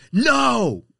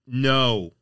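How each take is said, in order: First: Full shout, very high and loud; screaming at dog. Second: Firm, louder no; raised voice. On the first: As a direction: scream it out as an angry order. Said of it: "if you're screaming at them". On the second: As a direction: raise your voice without screaming. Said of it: "You can raise your voice and say". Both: Shown as a demonstration.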